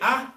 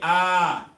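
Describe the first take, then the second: First: The vowel is short and clipped. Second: The vowel is drawn out long. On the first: "Instead of saying" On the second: "So how do we elongate that?"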